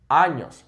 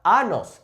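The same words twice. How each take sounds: First: "años" with a clear ny sound; emphatic Spanish ñ in "años"; correct ñ pronunciation. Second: "anos" with a plain n, no ny glide; mispronounced años. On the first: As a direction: say "años" as AHN-yos, falling at the end. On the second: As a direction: say "anos" as AH-nos. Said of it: "It is not anos". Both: Shown as a demonstration.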